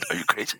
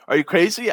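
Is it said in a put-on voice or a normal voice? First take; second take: put-on voice; normal voice. First: It is said in a put-on voice. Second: It is said in his normal voice.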